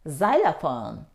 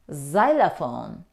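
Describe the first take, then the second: Both takes have the same delivery.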